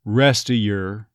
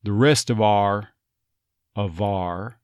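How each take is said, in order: First: "of" as a bare "uh" in "Rest of your"; dropped V. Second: "of our" linked as "uh-VAR"; "the rest of our" with V linking into "ar"; V retained. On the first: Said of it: "the V sound of that will tend to go away". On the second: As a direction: keep the V in "of our", "our" said as "ar". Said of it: "Notice that V comes back in there". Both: Shown as a demonstration.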